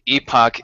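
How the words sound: It is pronounced the British way. "Epoch is the British pronunciation"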